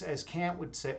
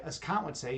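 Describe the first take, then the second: First: "Kant" with the flat vowel of "cat"; Kant like "can't". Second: "Kant" with the open vowel of "father". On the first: Speaker first names the philosopher, "Kant" said like "can't". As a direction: say "Kant" to rhyme with "ant". Says name, then corrects its vowel. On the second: Speaker corrects the philosopher's name, "Kant" said as "Kahnt". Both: Real, not acted.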